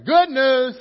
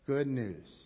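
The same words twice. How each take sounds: First: The phrase is shouted loudly and excitedly. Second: The phrase is read out in a flat voice. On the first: "let's try this again like it's good news. Let's shout it like you're the newspaper boy" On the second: "Read this out loud with me"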